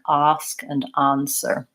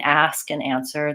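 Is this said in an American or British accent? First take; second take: British; American. First: The words use a British vowel sound. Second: The words use an American vowel sound. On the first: "They say it more like ask and answer. They use this vowel, which is not a vowel that we have in American English" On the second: "they're not saying ask and answer"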